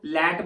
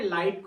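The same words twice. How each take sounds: First: लैट said short, like "let" with a flat e; Punjabi-style लैट, a short "let" vowel instead of "ai"; Punjabi "lait". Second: लाइट with a full "ai" glide, like English light; correct "light". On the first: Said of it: "हम लाइट को लैट बोलते हैं". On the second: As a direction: say लाइट properly, with a clear "ai" diphthong. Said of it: "लाइट को लाइट ही बोलना है". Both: Shown as a demonstration.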